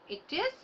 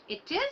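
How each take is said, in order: The two takes are said the same way.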